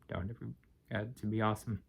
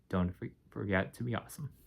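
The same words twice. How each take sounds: First: The voice sounds unclear and worn out. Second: The voice sounds clear and coherent.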